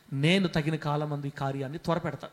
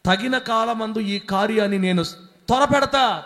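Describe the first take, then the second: First: Said in the usual way. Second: Slow, loud, higher proclamation of the promise; booming promise. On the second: Acted. Pastor repeats God's promise to the church, slow and booming. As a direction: hammer each word home from the pulpit.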